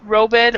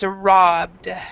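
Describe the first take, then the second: First: The ending is said as an extra syllable. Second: The ending joins the word as one syllable. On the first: The speaker calls it wrong. "the pronunciation of this is not" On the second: The speaker calls it right. "It's robbed. Is how we pronounce it"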